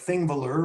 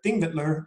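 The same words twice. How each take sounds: First: The name is said in an Americanized way, as spelled. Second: The name is said the local way, stressed on the first syllable. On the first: This is how Americans tend to say it. "it looks like Þingvellir, which is, that's okay if you want to say that" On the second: This is how Icelanders say it. "Þingvellir is how they say it. Every Icelandic word, you emphasize the first syllable"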